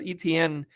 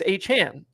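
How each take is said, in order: First: The surname sounds like 'Etienne'. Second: The surname sounds like 'Achane'. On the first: The speaker calls it wrong. "say it right" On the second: The speaker calls it right. "it's Achane"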